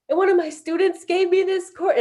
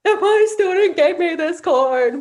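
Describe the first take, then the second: First: High choked voice, about to break; retelling the talking circle, choked with tears; losing it, crying. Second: High, loud, slow, hammed-up crybaby imitation; mocking teens. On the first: Retold or imitated. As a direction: voice cracking as tears come. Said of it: "and I lost it and I couldn't even". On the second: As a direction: mimic mom's tearful line to tease her. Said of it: "they were mocking me".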